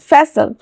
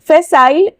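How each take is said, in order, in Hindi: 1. आखिरी अक्षर 'sul' जैसा सुनाई देता है। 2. आखिरी अक्षर 'sile' जैसा सुनाई देता है। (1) "यहाँ पे दोनों प्रोनाउंसिएशन है" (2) "यहाँ पे दोनों प्रोनाउंसिएशन है"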